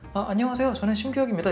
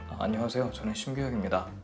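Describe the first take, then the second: First: It is said in a high voice. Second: It is said in a low, thick voice. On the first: "높게 얘기할 때도" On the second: "목소리를 굵게 내봐 그러면은 그냥 평소처럼"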